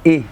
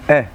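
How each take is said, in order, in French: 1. La voyelle est un son e fermé et tendu. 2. La voyelle est un son schwa neutre et relâché. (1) "Pas E" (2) "mais E. C'est-à-dire, il n'y a pas l'accent"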